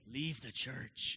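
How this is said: It is said in a creepy, eerie voice.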